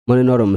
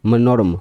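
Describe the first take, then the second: Both takes have the same delivery.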